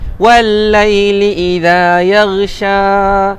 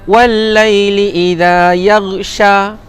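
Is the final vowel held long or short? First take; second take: long; short. First: The final vowel is held for double length. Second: The final vowel is held only briefly. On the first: The speaker calls it right. "Sya, dua harakat" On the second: The speaker calls it wrong. "satu harakat je salah"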